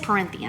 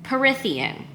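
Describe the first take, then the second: First: There is an n sound before the th. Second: There is no n sound before the th.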